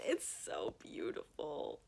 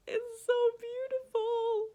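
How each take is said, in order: First: "It's so beautiful" whispered low and slow, breathless; hushed awe. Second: "It's so beautiful" squealed high and loud, drawn out; squealing delight. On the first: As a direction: sigh "It's so beautiful" under your breath in wonder. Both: Real, not acted. Admiring the cover.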